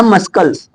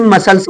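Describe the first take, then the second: First: "मस्कल्स" with a hard k sounded after the s; wrong old pronunciation. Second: "मसल्स" with no k sound; correct silent c. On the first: Teacher recalls his own old mistake, mispronounced with a k. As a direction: say "मस्कल्स", pronouncing the c as k. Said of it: "मैं खुद बोलता था मस्कल्स". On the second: Teacher gives students the corrected word, c kept silent. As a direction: say "मसल्स", going straight from s to l. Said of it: "इसे मसल्स बोला जाएगा". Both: Shown as a demonstration.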